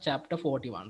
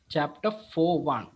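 First: The number is said as forty-one. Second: The number is said as four one. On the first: It is an ordinary number. The speaker calls it wrong. "usually you will read this as chapter 41" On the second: It refers to the first chapter of part four. The speaker calls it right. "we are going to read this as chapter 41"

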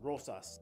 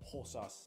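First: The word begins with an English R sound. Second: The word begins with an H sound.

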